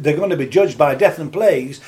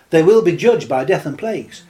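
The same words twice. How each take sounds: First: Said in the usual way. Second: Will punched hard and louder; stress on will. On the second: Acted. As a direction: lean into "will" as a firm promise. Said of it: "let me tell you".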